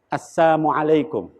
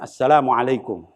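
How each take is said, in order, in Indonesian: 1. Salam itu diucapkan dengan bunyi yang sengaja diplesetkan. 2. Salam itu diucapkan dalam bentuk lengkap yang normal. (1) "berkata sambil diplesetkan lidahnya" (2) "Kalau kita mengucapkan salam kan kita ucapkan assalamualaikum"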